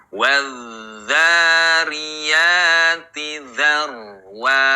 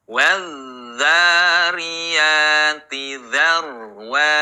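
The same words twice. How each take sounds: The two takes are said the same way.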